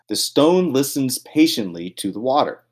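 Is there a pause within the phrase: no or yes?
no. The phrase runs straight through without a pause. The line runs on into the next line. The speaker calls it right. "Notice I didn't pause there"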